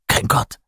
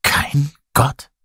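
First: Toneless, hushed declaration; bleak statement. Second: High, halting shocked question; horrified. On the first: Lazarus lists what the cave lacked, bleakly. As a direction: state it bleakly, almost without voice. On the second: People question Lazarus, horrified. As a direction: ask it in dismay, split by a pause. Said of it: "Die Menschen waren entsetzt". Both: A narrator's reading.

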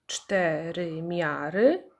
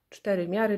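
First: "cztery miary" very slow and drawn out; syllable by syllable. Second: Said in the usual way. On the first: Shown as a demonstration. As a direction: stretch "cztery miary" evenly, syllable after syllable. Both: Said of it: "ilość sylab w nazwie pokrywa się".

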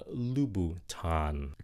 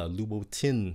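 First: "Louboutin" ending in an open "tahn"; correct pronunciation. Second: "Louboutin" ending in a "tin" sound; mistaken pronunciation. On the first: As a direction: say "Louboutin" slowly as loo-boo-TAHN. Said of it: "thật sự nó là". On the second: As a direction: say "Louboutin" as loo-boo-TIN. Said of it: "các bạn nghĩ phát âm nó là". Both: Shown as a demonstration.

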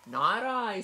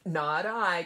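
First: High, loud little pig squeal; squealing piglet voice. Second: Loud quacky duck reply; quacking duck voice. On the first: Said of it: "squealed the pig". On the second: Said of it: "quacked the duck". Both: A narrator's reading.

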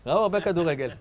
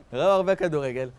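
The two takes are said the same way.

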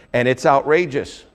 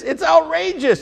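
First: Said in the usual way. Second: It's "outrageous" lifted much higher, falling at the end; preacher insists the story is "outrageous", pitched high; stress on outrageous. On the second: Shown as a demonstration. Preacher repeats the point, stressing "outrageous" high. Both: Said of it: "It is".

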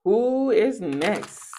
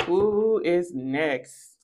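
First: Slow teasing question, rising at the end; slow drawn-out question. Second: Slowest, lower and ominous; slower, lower who is next. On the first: Asking the folks slowly who comes next. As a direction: stretch each word to tease. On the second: Slowly threatening the next person in line. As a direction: drag it out, lower and darker. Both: Shown as a demonstration.

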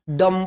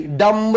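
First: "डम" with a silent b, ending on m; right pronunciation. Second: "डम्ब" with the final b sounded; wrong pronunciation. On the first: Teacher gives the right reading of dumb, silent b. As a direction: say "डम", stop on the m. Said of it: "डम पढ़ते हैं". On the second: Teacher shows the wrong reading of dumb, b sounded. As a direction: say "डम्ब" with a clear b on the end. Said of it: "डम्ब नहीं पढ़ते". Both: Shown as a demonstration.

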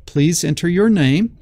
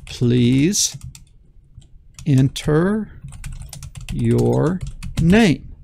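First: Said in the usual way. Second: Each word spoken apart with long pauses; dictated slowly. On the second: Shown as a demonstration. Teacher dictating the prompt, slow word by word. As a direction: spell it out word by word for the students. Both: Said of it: "like that, okay?".

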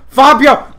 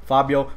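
First: High, very loud yell of the name; alarmed shout. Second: Said in the usual way. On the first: Real, not acted. Rider calling his horse Fabio, alarmed shout. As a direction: holler at the horse.

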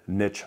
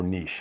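First: "niche" with a short i and a tch ending; niche as "nitch". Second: "niche" with a long ee and soft sh; niche as "neesh". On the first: Unsure of the word, offering one way, "niche" said "nitch". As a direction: say "niche" to rhyme with "rich". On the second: Unsure of the word, offering the alternative, "niche" said "neesh". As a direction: say "niche" to rhyme with "leash". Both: Shown as a demonstration. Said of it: "or niche, however you say it".

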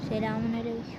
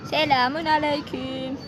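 First: Lower, quieter put-on greeting; disguised deep voice. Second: Disguised deep voice. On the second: Pretend. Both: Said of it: "Arkadaşlar sesimi değiştirdim".

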